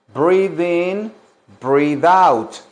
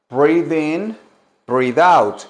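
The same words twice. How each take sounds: The two takes are said the same way.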